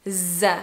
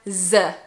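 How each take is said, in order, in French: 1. Il commence par un son z. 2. Il commence par un son z.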